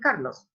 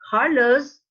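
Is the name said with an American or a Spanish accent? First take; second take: Spanish; American. First: The name is said with a Spanish accent. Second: The name is said with an American accent. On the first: "They don't say Carlos" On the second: "An American guy is going to say"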